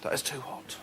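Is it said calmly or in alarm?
calmly. It is said calmly with a relaxed sigh.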